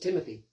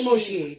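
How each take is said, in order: First: The middle consonant is a 'th' sound. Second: The middle consonant is an 'sh' sound.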